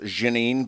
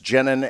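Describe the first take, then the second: First: The name is said with a French pronunciation. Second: The name is said with an American pronunciation. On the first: This is the name's original pronunciation. "it's actually pronounced Janine" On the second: This is the form the speaker uses day to day. "I've one hundred percent adopted like the Americanized version of it"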